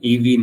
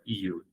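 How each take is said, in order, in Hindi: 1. यह शब्द दो अक्षरों में बोला जाता है, ee-vee। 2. यह शब्द एक अक्षर में बोला जाता है, you। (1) "ईवी नहीं है" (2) "केवल यू, बस यही प्रोनाउंसिएशन है"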